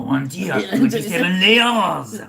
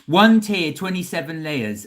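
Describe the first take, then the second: First: It is said in a put-on French accent. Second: It is said in the speaker's ordinary accent.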